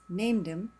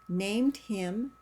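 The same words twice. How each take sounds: First: The h sound in 'him' is dropped. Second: The h sound in 'him' is pronounced.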